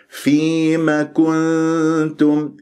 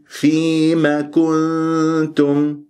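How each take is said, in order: Both takes have the same delivery.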